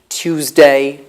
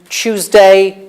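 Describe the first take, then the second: First: It begins with a separate 't' and 'y'. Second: It begins with a merged 'ch' sound. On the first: This is the older pronunciation. "which we used in the past" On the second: This is the modern pronunciation. "the odd coalescence again"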